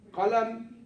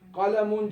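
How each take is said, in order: First: The word ends without its final vowel ending. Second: The word keeps its final -un vowel ending. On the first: The speaker stops after this word. "if you stop ... that last vowel? It doesn't sound" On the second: Another word follows without a stop. "but if you continue"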